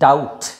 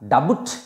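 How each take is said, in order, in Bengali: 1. এই শব্দে কোনো b ধ্বনি উচ্চারিত হয় না। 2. এই শব্দে একটি b ধ্বনি উচ্চারিত হয়। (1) "বি সাইলেন্ট" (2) "এই প্রোনাউন্সিয়েশনটা ডাবুট বলছি না"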